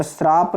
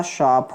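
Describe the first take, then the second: First: श्राप with an r after the s, sraap; श्राप, र के साथ, गलत रूप; wrong form shraap. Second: शाप with a plain sh and no r, shaap; शाप, बिना र के, साफ़ श के साथ; correct shaap. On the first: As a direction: say श्राप with the s-r cluster. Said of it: "शाप होता है". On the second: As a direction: stress शाप, drop the r sound. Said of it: "श्राप नहीं होता". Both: Shown as a demonstration.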